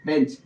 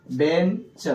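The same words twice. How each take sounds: First: Said in the usual way. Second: बेंच split, with the च set apart; final च sound separated. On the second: Shown as a demonstration. Teacher showing the च sound, बेंच said in two parts. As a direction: break बेंच into "ben" and a separate "cha". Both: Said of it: "च हो रहा था".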